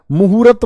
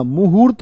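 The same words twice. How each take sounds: First: मुहूर्त with an extra a before the final t; wrong stretched form. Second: मुहूर्त with r joined straight to t; correct form. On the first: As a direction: say मुहूर्त as mu-hu-rat. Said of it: "मत न बोल देना". (मुहूर्त को मुहूरत जैसा बोलें) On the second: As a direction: end मुहूर्त on a tight rt, no vowel between. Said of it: "मुहूर्त होता है". (मुहूर्त में र्त मिलाकर बोलें) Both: Shown as a demonstration.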